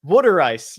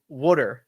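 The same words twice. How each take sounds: First: "Water" as Philly wooder with a d; Philly water ice. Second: Said in the usual way. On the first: Shown as a demonstration. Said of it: "the way my dad says water". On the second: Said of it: "and you have a glass of w".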